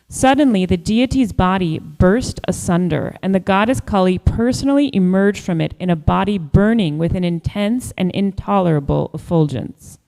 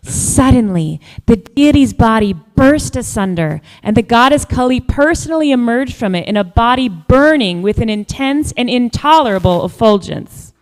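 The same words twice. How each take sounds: First: It is read in a plain, flat manner. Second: It is read expressively, like a bedtime story.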